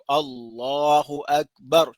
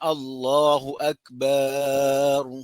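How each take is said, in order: First: The vowel after the b is short. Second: The vowel after the b is drawn out. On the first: The speaker calls it right. "Jangan panjangkan ba pada akbar itu. ... Cukup" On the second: The speaker calls it wrong. "Bukan ... salah tu"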